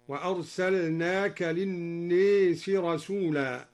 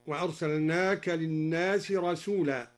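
First: الناس with its alif bent toward e, slow chant; imala on الناس. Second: Said in the usual way. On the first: Shown as a demonstration. Teacher demonstrating Duri's reading: الناس with imala. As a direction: recite للناس with the long a leaning to e. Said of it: "قرأ الدوري بإمالة ألف الناس". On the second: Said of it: "قوله تعالى".

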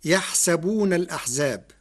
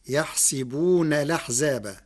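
First: يحسبون said with fatha on the sin, yahsabun; Hafs reading. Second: يحسبون said with kasra on the sin, yahsibun; Warsh reading. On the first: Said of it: "قرأ ورش كلمة يحسبون". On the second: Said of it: "بكسر السين". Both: Shown as a demonstration.

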